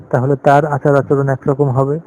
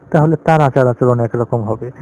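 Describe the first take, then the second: The two takes are said the same way.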